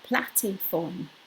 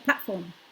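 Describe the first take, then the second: First: An extra vowel is inserted between plat and form. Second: The two parts run together without an extra vowel. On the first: The speaker calls it wrong. "not platiform" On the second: The speaker calls it right. "run them together"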